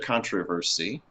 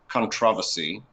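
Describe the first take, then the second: First: It is said with an American pronunciation. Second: It is said with a British pronunciation.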